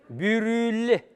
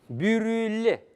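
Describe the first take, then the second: The two takes are said the same way.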